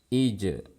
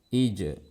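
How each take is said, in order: The two takes are said the same way.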